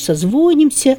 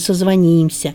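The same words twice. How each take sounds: First: The stress falls on the root syllable. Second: The stress falls on the ending syllable. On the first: This is what people actually say. The speaker calls it wrong. "реально слышится" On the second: This is the standard form. The speaker calls it right. "А правильно"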